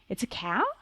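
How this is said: The voice rises at the end like a question. It sounds like a question. "can make that sound like a question"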